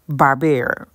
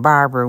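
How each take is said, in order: First: The middle syllable has a 'bear' vowel. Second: The middle syllable has a plain 'ba' vowel. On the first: The speaker calls it right. "like the Hanna-Barbera cartoons" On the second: The speaker calls it wrong. "I ain't even saying it right"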